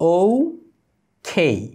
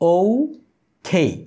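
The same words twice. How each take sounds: Both takes have the same delivery.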